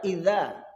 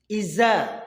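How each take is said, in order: First: The middle consonant is a soft th-like sound. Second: The middle consonant is a plain z sound. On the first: The speaker calls it right. "padahal idza" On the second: The speaker calls it wrong. "lidah kita kalau membaca za itu jadi za"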